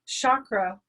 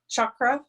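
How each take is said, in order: First: It is pronounced the anglicized English way. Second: It is pronounced the Sanskrit way. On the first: "Chakra is an English, anglicized Western pronunciation" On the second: "chakra is the Sanskrit pronunciation"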